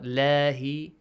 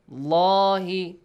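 First: The L is said light and thin. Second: The L is said heavy and thick. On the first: The speaker calls it wrong. "not lahi" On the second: The speaker calls it right. "the lam in the word Allah is heavily pronounced"

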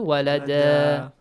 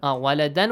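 First: The word ends with a long a vowel. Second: The word ends with an n sound. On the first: "if you stop at a word that ends with Tanween Fatha" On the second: "Waladan will be changed to?"

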